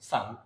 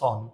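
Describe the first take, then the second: First: The vowel is open, like in 'sun'. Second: The vowel is rounded, like in 'on'. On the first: The speaker calls it right. "এটা ভুল উচ্চারণ, সান" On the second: The speaker calls it wrong. "অনেকে ভুল উচ্চারণ করে এটাকে বলে সন"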